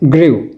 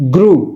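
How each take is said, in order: First: The vowel starts with an ee-like sound. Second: The vowel is a plain oo sound. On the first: The speaker calls it wrong. "கிரிவ்னு பாவிச்ச பிழை" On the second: The speaker calls it right. "அதை சொல்லப்பட வேண்டும் க்ரூ"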